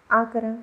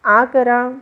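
First: Said in the usual way. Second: Loud, firm nurse's order; insistent, much louder command; raised voice. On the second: A narrator's reading. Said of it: "तिनं आवाज चढवला".

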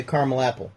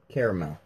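First: Caramel as CAR-mel before apple; two-syllable caramel. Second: Caramel as CARE-uh-mel; three-syllable caramel. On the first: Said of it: "I say a caramel apple". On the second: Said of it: "if I say what's inside of that". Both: Shown as a demonstration.

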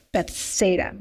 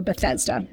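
First: "Bethsaida", the middle sounded as SAY; Bethsaida pronunciation. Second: "Bethesda", the middle sounded as THEZ; Bethesda pronunciation. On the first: Speaker offering one way to pronounce the pool's name, "Bethsaida" with SAY. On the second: Speaker offering the other way to pronounce the pool's name, "Bethesda" with THEZ. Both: Shown as a demonstration. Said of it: "depending on how you wanna pronounce it".

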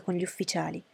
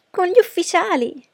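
First: Said in the usual way. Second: High, loud, thrilled echo; exclaiming. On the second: A narrator's reading. Daughter hearing of dinner with the officers, exclaiming. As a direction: cry it out in excited astonishment. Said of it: "esclamò Lydia".

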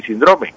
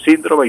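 First: Síndrome as sin-DRO-me; stress on middle syllable. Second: Síndrome as SÍN-dro-me; stress on first syllable. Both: Shown as a demonstration. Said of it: "utilizan los dos".

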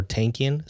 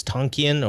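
First: "Tankian" with the a of "tank"; pronunciation option. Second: "Tonkian" with an open ah, TAHN-kee-an; pronunciation option. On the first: Co-host weighs two readings of a surname, "[name]" like "tank". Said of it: "I don't know if it's Tonkian or". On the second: Co-host weighs two readings of a surname, "Tonkian" with ah. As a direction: open the first vowel of "Tonkian" to ah. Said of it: "I don't know if it's". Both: Shown as a demonstration.

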